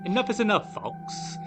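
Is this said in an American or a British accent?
British. It is said in a put-on British accent.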